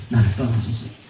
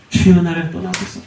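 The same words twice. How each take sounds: First: "나를 떠나소서" dropped much softer and lower; hushed plea. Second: Said in the usual way. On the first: Acted. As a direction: breathe "나를 떠나소서" as a faint, humbled plea. 같은 고백을 작게 반복. ("나를 떠나소서"를 훨씬 작고 낮게)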